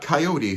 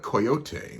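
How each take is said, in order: First: It is said with an English pronunciation. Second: It is said with a Mexican Spanish pronunciation. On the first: "Not coyote so much" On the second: "which is actually the actual um, Mexican pronunciation"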